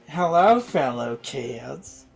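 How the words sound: It is said in a put-on accent.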